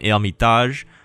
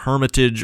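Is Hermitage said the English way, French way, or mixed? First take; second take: French; English. First: The word is said with a French pronunciation. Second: The word is said with an English pronunciation. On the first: This is how French speakers say it. "if you're French, you probably call this one Hermitage" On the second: This is how native English speakers say it. "if you're a native English speaker, you probably call this wonder something like uh, Hermitage"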